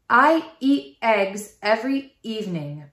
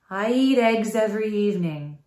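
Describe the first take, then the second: First: Each vowel starts with a hard glottal catch. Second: The words run smoothly together on the breath. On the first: The speaker calls it wrong. "A glottal attack sounds like this" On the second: The speaker calls it right. "use your air to smash the words together like this"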